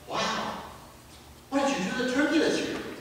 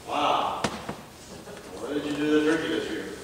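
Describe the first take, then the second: First: The tone sounds delighted and impressed. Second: The tone sounds dismayed and critical. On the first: The turkey turned out really well. "Something really went right this year" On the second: Something went wrong with the turkey. "You know something went wrong"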